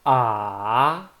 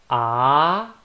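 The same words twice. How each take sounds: First: The pitch dips down, then rises. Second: The pitch rises from low to high. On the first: "down first, then up" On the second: "from down to up"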